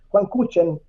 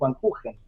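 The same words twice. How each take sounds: First: The surname has the local Spanish-style pronunciation. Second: The surname has its original foreign pronunciation. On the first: This is how people here called him. The speaker calls it wrong. "aquí se le decía así" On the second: This is how the name should properly be said. The speaker calls it right. "en realidad se debería pronunciar"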